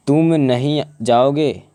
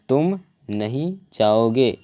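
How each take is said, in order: First: Said in the usual way. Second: Slowly, word by word, leaning on नहीं. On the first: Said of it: "उपयुक्त दूसरे वाक्य में नहीं". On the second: Shown as a demonstration. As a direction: stress on नहीं, set apart by pauses. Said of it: "दूसरे वाक्य में नहीं शब्द पर बल". ("नहीं" पर ज़ोर देकर, धीरे-धीरे)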